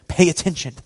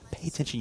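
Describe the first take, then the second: First: Laughing. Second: Much softer, almost to herself; a hushed second take of the line; quiet repeat. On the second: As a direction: drop it to a soft aside. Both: Shown as a demonstration.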